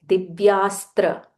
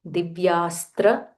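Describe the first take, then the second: The two takes are said the same way.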